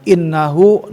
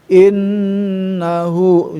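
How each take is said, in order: First: The doubled n is cut short with no nasal hum. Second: The doubled n is held with a long nasal hum. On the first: The speaker calls it wrong. "jangan innahu, nah nggak ada tuh" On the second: The speaker calls it right. "sabar untuk menahan gunah"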